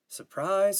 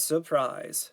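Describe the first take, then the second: First: Sarcastic. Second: Sarcastic, falling. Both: Acted. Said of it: "Steve responded".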